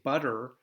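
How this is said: American accent, the middle T sounds like D. "we American English, we say butter"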